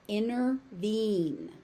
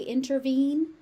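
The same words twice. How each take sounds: First: The T sound in the middle is dropped. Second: The T sound in the middle is pronounced. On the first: "It just disappears" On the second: "no one is going to say that you are wrong"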